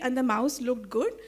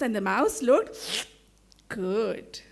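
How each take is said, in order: First: It is read flatly, without expression. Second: It is read with lively, meaningful expression.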